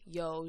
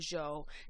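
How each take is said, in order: First: The word begins with a y sound. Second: The word begins with a j sound.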